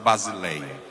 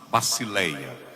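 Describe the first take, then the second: First: The middle consonant is a buzzing z sound. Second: The middle consonant is a hissing s sound. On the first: The speaker calls it wrong. "não é basileia" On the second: The speaker calls it right. "o sigma, ... sempre soa como basi, basileia"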